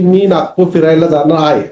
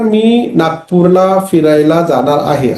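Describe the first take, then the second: First: Spoken quickly, the ending after Nagpur is dropped. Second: Every syllable, including the ending after Nagpur, is pronounced. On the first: The speaker calls it wrong. "स्पीडनी बोलल्यामुळं" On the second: The speaker calls it right. "असं बोलण्याऐवजी"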